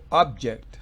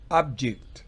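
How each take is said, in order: Both takes have the same delivery.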